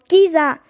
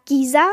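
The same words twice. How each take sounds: First: GISA called out louder, falling at the end; urgent call. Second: GISA lifted at the end as a searching question; questioning call. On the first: Ethel alone in grey fog calls for Gisa, louder falling cry of "Gisa". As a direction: call "Gisa" out firmly, no question in it. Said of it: "rief er, alles um ihn herum war grau". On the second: Ethel looks for his vanished friend, questioning call of "Gisa" with rising end. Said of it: "rief er". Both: A narrator's reading.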